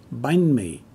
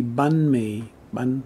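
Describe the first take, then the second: First: Banh mi as "bine mee", with a long i sound; correct vowel. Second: Banh mi as "bun mee", no i glide; softer Southern pronunciation. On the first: Teacher correcting learners, long i in banh. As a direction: say banh mi with banh gliding like "eye". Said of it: "it's banh mi". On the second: Teacher showing how the South says it, softer vowel. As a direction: say banh mi slowly, banh like English "bun". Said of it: "it'll sound a little softer". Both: Shown as a demonstration.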